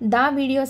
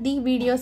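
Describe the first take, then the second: First: The article sounds like 'thuh' before the word. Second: The article sounds like 'thee' before the word. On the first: The speaker calls it right. "ద videos అని పలకాలా" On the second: The speaker calls it wrong. "లేదా ది videos అని పలకాలా"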